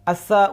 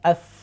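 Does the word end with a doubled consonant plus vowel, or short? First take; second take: doubled; short. First: The final consonant is doubled and followed by a vowel. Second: The word ends short on a single consonant. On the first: The speaker calls it wrong. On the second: The speaker calls it right.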